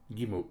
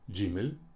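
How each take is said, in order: First: The word begins with a g sound. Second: The word begins with a j sound. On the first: "Г" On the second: "Дж"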